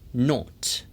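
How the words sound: It is said with a British accent. "영국식 같은 경우에는"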